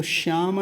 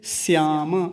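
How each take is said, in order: First: श्याम said "shyama"; wrong sh sound. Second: श्याम said "syama", with s; dental s. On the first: Teacher showing what not to say, श्याम with sh. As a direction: start श्याम with a palatal sh. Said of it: "तो श्याम नहीं बोलेंगे". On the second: Teacher correcting to dental sakar, श्याम as "syama". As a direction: start श्याम with a plain s and sound final "ma". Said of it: "क्योंकि दंत्य सकार लगा हुआ है". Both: Shown as a demonstration.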